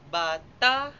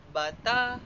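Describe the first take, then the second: The two takes are said the same way.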